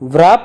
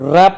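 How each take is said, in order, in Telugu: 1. "r" ముందు "w" శబ్దం వినిపిస్తుంది. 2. "r" ముందు "w" శబ్దం వినిపించదు. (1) "వ్రాప్ అనం" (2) "ర్యాప్ అంటాం. సో ఇక్కడ డబ్ల్యూ సైలెంట్"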